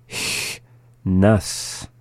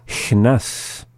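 First: "Chnas" broken into a long hissed "Ch", then "nas"; slowly. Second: Said in the usual way. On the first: Shown as a demonstration. Teacher giving word examples, "Chnas" said slowly in parts. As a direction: draw "Chnas" out in two separate parts. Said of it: "the second time slowly". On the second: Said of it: "up to speed".

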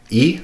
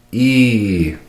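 First: Said in the usual way. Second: "E" as a long, drawn-out ee; dragged vowel. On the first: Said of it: "E would sound like this". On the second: Shown as a demonstration. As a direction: hold "E" out steadily. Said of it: "would sound like this".

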